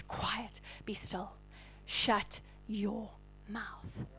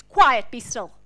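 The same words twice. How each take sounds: First: Slow, hushed whisper; whispered command. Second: Loud rebuke. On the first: Jesus to the storms, a slow whispered command. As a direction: whisper it with quiet authority. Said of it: "declare to the storms". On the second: Jesus addressing the waves, a loud command. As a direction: call it out with force. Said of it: "he literally addresses them". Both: Acted.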